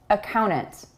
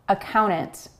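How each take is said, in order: Both takes have the same delivery.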